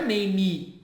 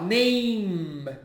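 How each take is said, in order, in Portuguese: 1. Uma vogal extra soa depois da consoante final. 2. Termina na consoante, sem vogal. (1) "não é name" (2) "você fala name"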